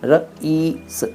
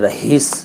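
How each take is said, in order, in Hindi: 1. बीच में h की ध्वनि सुनाई नहीं देती है। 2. बीच में h की ध्वनि सुनाई देती है। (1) "सही शब्द है रईस" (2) "वो अपना नाम रहीस बताते हैं"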